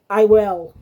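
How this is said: It is said with strong emotion.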